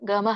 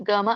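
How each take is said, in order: No difference in how they are said.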